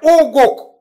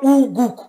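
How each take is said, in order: First: The vowels sound like 'o' as in go. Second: The vowels sound like 'oo' as in food. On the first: The speaker calls it right. "C'est Ogok" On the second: The speaker calls it wrong. "C'est pas Ougouk"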